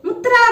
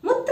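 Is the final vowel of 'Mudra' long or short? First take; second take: long; short. First: The final vowel of the word is long. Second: The final vowel of the word is short.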